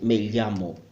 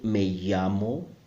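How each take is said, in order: First: The double L uses a different, harder sound. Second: The double L sounds like a Y. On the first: This is how a regional minority says it. "some native speakers who make a very difficult sound for me" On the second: This is how most speakers say it. "will pronounce the double L as a Y sound"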